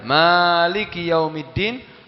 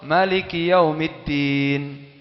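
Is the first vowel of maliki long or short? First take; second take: long; short. First: The first vowel of maliki is drawn out long. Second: The first vowel of maliki is kept short. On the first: "Bisa dengan dipanjangkan mimnya" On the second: "bisa dengan tanpa panjang"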